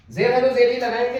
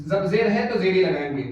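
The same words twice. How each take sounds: First: जेर है तो जेर ही लगाएंगे said louder, weight on जेर; loud teacher's emphasis on जेर; louder emphatic repeat. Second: Said in the usual way. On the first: Shown as a demonstration. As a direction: hammer home जेर है तो जेर ही लगाएंगे. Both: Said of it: "teacher repeats the rule".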